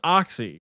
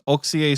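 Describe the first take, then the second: First: The name is said like the English word. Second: The name is said the local Swedish way. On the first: The speaker calls it wrong. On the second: The speaker calls it right.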